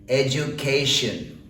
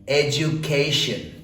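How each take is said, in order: Both takes have the same delivery.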